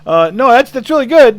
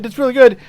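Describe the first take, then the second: First: Much higher and louder, eager and anxious; a timid sound engineer trying to stay polite; nervous young engineer. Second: High and loud, nervously repeating the praise; nervous young engineer. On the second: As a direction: soften the blow for the star. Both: Retold or imitated. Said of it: "the poor kid, he goes".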